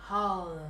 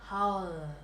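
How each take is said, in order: Both takes have the same delivery.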